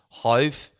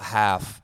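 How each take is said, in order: First: The name rhymes with 'stove'. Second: The name rhymes with 'laugh'. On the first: The speaker calls it right. "it sounds like H O W T H" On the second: The speaker calls it wrong. "I've been pronouncing this wrong"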